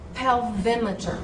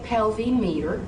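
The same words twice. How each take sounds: First: The stress is on the second syllable. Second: The stress is not on the second syllable. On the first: The speaker calls it right. "Say pelvimeter. ... That M wants to hang out with the vowel in front of it" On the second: The speaker calls it wrong. "So do not say pelvimeter"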